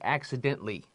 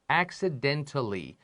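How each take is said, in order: First: It is said quickly with the ending shortened. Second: It is said carefully with every syllable.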